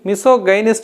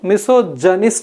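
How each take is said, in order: First: The consonant after 'miso' is a hard g. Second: The consonant after 'miso' is a j sound. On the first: The speaker calls it wrong. "ఇది మిసో గైనిస్ట్ అనొద్దు" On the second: The speaker calls it right. "మిసో జనిస్ట్ అని పలకాలి"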